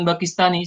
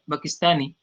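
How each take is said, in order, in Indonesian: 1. Bunyi y di akhir pendek dan ringan. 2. Bunyi y di akhir dobel dan ditekan. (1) "jangan Pakistani saja" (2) "ditekan Pakistani"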